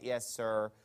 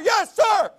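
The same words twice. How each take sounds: First: It is said very quietly. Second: It is said very loudly. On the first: The reply is grudging and barely given. "super quiet yes, sir" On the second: The reply is given with exaggerated respect. "the military takes this to an extreme"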